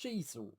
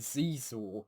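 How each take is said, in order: First: The name begins with an 'sh' sound. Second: The name begins with a 'z' sound. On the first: The speaker calls it right. "But apparently it's Shizor" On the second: The speaker calls it wrong. "So I always thought it was Zizor"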